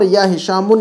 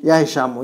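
First: "हिशामुन" ending in -un; wrong double pesh. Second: "हिशामु" ending in short -u, no n; single pesh ending. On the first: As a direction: add an n after the u in "हिशामुन". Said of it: "दो पेश नहीं पढ़ेंगे". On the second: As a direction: leave "हिशामु" open on u. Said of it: "सिर्फ एक ही पेश पढ़ा जाएगा". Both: Shown as a demonstration.

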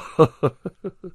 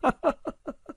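First: Chuckle. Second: Cackle. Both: Acted. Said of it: "他咯咯地笑着".

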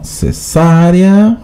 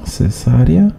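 First: Cesárea drawn out very slowly, pitched up; slow, high, emphatic Cesárea; pointed correction. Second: Said in the usual way. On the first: Shown as a demonstration. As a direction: stretch Cesárea syllable by syllable to correct someone. Correcting a chatter's spelling.

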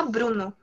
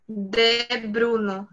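First: Said in the usual way. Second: "de" stretched out slowly before "Bruno"; slow, set-apart "de", then "Bruno"; wrong article added. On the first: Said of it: "A gente fala". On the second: Shown as a demonstration. Teacher showing what English speakers don't say, stressed "de". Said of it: "A gente não fala".

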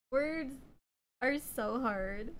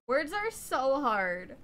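First: Said in the usual way. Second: Slowed, self-mocking. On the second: Real, not acted. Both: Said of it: "I'm always struggling to speak".

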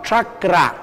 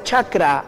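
First: Chakra slowed, opening on a 'tr' sound; careful, slow chakra with retroflex-like onset; correct Quechua pronunciation. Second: Chakra with a plain Spanish 'ch' onset; chakra with ordinary 'ch', not palatal 'tr'; Spanish-style mispronunciation. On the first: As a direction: model chakra as 'trakra', tongue near the palate. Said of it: "sino chakra". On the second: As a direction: say chakra the everyday Castilian way, as the counterexample. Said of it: "Y no se pronuncia chakra". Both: Shown as a demonstration.

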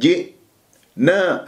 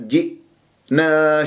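First: جئنا with a bounced qalqala hamza; wrong bouncing hamza. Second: جئنا slow, hamza closed cleanly. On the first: Teacher imitating wrong جئنا. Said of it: "لا أقول جئنا". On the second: Teacher modelling جئنا. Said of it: "شوف". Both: Shown as a demonstration.

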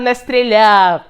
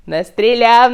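First: Не stressed, стріляв falls off. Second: Стріляв stressed, the не light. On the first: Repeating the denial, stress on не. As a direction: hit не hard, let стріляв drop. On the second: Repeating the denial, stress on стріляв. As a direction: lean on стріляв, не стays quick. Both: Shown as a demonstration.

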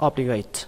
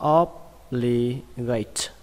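First: Said in the usual way. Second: Obligate in three separated syllables; slow breakdown. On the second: Shown as a demonstration. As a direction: say obligate very slowly, pausing between syllables. Teacher breaks new word down. (đọc chậm obligate, tách từng âm tiết)

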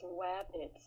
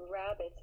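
First: "wabbits" with a w for the r; soft "wabbits", r turned to w; Fudd pronunciation. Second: Said in the usual way. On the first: Shown as a demonstration. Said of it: "it's wabbits". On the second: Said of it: "it's not rabbits".

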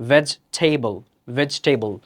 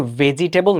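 First: ভেজিটেবল without the middle "i", "VEJ-tebol"; correct pronunciation. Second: ভেজিটেবল in four syllables, "ve-ji-te-bol"; wrong pronunciation. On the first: Teacher modelling the word for learners, correct pronunciation. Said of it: "এটার উচ্চারণ হবে হচ্ছে". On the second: Teacher showing the common mistake, mispronounced. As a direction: sound every vowel in ভেজিটেবল. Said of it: "উচ্চারণ কিন্তু ভেজিটেবল না". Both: Shown as a demonstration.

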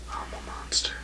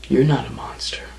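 First: Breathy whisper, barely audible; menacing whisper. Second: Said in the usual way. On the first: Acted. Wrestler whispering a threat to Painkiller, menacing whisper. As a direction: hiss it like a secret threat.

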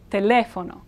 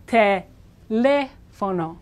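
First: Said in the usual way. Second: Teléfono very slow, pausing round a stretched LE like lay; syllable-by-syllable teaching. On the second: Shown as a demonstration. Teacher linking it to lay the phone, very slow te-LE-fono in Teléfono. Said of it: "You're going to lay the phone down".

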